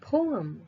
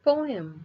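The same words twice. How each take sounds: First: It is said with an American pronunciation. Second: It is said with a British pronunciation. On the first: "according to the American uh, pronunciation, this is poem" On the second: "according to the British pronunciation, this is poem"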